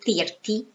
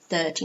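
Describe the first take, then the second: First: The first vowel is cut short. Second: The first vowel is drawn out long. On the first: The speaker calls it wrong. "not thirty, no" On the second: The speaker calls it right. "It's kind of like a, a long sound"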